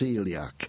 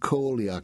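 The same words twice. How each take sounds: First: The word is said in its usual spoken form. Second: The word is sounded out as it is spelled. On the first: The speaker calls it right. "it's pronounced celiac" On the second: The speaker calls it wrong. "So it looks like celiac"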